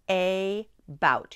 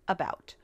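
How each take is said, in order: First: The word is split, first vowel said fully. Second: The word is said naturally, syllables run together. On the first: "Listen carefully. A bout. You say it like that" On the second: "The word is about"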